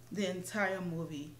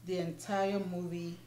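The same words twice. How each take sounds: The two takes are said the same way.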